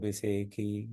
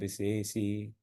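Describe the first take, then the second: First: The consonant is pronounced as a kh sound. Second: The consonant is pronounced as a sh sound. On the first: "वहां मैं मैं तो उसको खा पढ़ूंगा।" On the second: "चाहे तो पढ़ सकते हैं"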